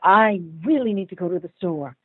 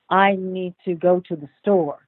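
First: It is said with strong emotion. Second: It is said flatly, without emotion.

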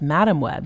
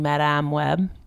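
First: Madame is pronounced the English way. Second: Madame is pronounced the French way. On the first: "apparently it's" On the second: "You're pronouncing it the correct French way"

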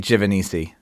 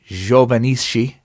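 First: The name is pronounced with American sounds. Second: The name is pronounced with Italian sounds. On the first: "how do you pronounce it in Jersey? I say Giovannici" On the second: "That's the Italian way to say my last name"

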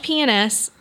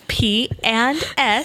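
First: It is said quickly, run together. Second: It is said slowly and clearly.

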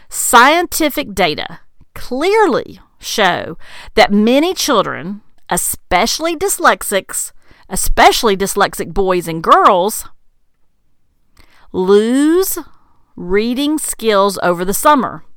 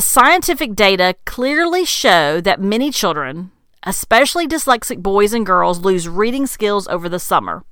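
First: It is said at a slow pace. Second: It is said at a fast pace.

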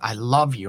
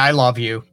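First: It is said warmly with strong feeling. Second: It is said in a flat, offhand way. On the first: The feeling is deep and sincere. "you know what? ... Oh my God, you're my life" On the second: The feeling is shown only in passing.

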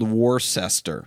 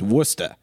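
First: It is said the way it is spelled. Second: It is said the local Massachusetts way. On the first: "I'm reading it, spelled Worcester" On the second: "if you're from Massachusetts, it's Worcester"

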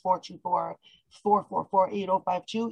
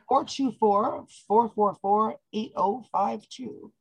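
First: The number is said fast. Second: The number is said slowly.

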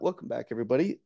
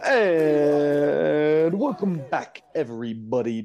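First: It is said in his normal speaking voice. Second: It is said in a put-on podcasting voice.

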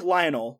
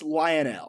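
First: It is said like the common first name. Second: It is said differently from the common first name. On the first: The speaker calls it wrong. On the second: The speaker calls it right. "but it's pronounced [name]"

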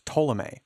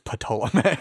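First: The initial P is silent. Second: The initial P is sounded hard. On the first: The speaker calls it right. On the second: The speaker calls it wrong.

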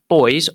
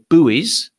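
First: The word is said the non-American way. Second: The word is said the American way.

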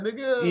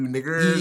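First: It is said in a laughing, friendly tone. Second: It is said in an angry, hostile tone. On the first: The word is meant affectionately. "It was just, ha ha" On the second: The word is meant as an insult.

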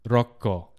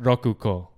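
First: The 'ku' is dropped into a doubled 'k'. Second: The full 'ku' syllable is said before 'ko'. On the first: The speaker calls it right. "It's rokko" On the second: The speaker calls it wrong. "not rokuko"

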